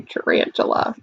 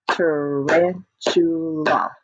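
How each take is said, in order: First: Said in the usual way. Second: "Tarantula" drawn out in four slow beats; syllable by syllable. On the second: Shown as a demonstration. Teacher claps the long word with children, "Tarantula" in four beats. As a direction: split "Tarantula" into ta, ran, tu, la. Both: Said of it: "Are you ready to clap it?".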